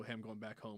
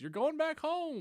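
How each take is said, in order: First: Said in the usual way. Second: High, slow sing-song echo; mock game voice. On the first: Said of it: "and it goes". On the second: Mimicking the game's reply to the player, high slow sing-song. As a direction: parrot it back like a chirpy game.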